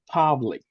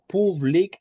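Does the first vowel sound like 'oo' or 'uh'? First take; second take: uh; oo. First: The first vowel is a short 'uh' sound. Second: The first vowel is a Spanish-like 'oo' sound. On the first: The speaker calls it right. "it's a combination between A and U, like A" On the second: The speaker calls it wrong. "no public"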